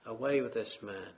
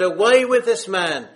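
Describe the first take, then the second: First: Softer, low, solemn repeat; quiet echo. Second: Loud, raised cry of rejection; leaders' loud cry. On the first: Preacher echoing the world's rejection, quiet and solemn. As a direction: let the words fall quietly, grave. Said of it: "has the same message on their lips". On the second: Religious leaders crying out against Jesus, loud mock shout. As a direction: shout it out like the angry crowd. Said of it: "They said". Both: Retold or imitated.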